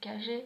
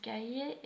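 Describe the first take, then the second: First: It is said with an Argentine accent. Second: It is said with a Mexican accent.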